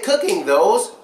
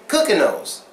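First: The word 'those' begins with a clear th sound. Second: The word 'those' begins with an n sound. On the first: The speaker calls it wrong. "we wouldn't say cooking those" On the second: The speaker calls it right. "we'd say cooking those. No, we're not cooking noses, but it just sounds like that"

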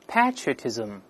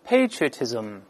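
First: It is said with a British pronunciation. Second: It is said with an American pronunciation. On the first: "我们大声先读一下英式发音" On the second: "再读一下美式发音"

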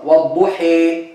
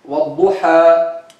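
First: The final vowel leans strongly toward e. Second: The final vowel is an open a sound. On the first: "that's called imala kubra" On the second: "that's called fatih"

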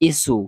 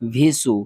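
First: The syllable starts with a bare vowel. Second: The syllable starts with a v sound. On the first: "এগুলা উচ্চারণ হবে না" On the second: "আমরা অনেকেই পড়ি ভিসু"

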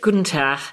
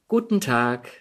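First: It is said with a Hamburg dialect accent. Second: It is said with a standard German accent. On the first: The speaker calls it wrong. "Irgendwann war dieser Hamburger Dialekt weg" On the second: The speaker calls it right. "Und irgendwann sagte ich plötzlich"

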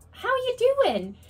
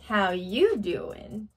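First: The greeting sounds plain and neutral. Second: The greeting sounds flirty and suggestive. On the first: An ordinary greeting. "It's not" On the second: The speaker is flirting. "It's very flirty"

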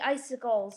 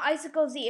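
First: The name ends in a plain plural z sound. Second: The name ends with a separate letter Z sound. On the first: The speaker calls it right. "But it's actually Icicles" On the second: The speaker calls it wrong. "That is not right. It's not Icicle Z"

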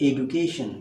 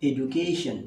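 The two takes are said the same way.

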